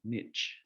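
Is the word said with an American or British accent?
American. It is said the American way.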